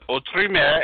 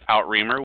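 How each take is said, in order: First: The name is said with its original sounds. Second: The name is said with Americanized sounds. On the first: The speaker calls it right. "It's true pronunciation is Autre Mer" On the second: The speaker calls it wrong. "I butchered the name, ... I called it Outreamer, which is probably a very American extension of it"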